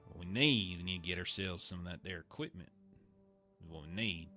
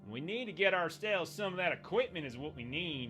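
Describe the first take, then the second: First: It is said at a normal volume. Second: It is said really loudly.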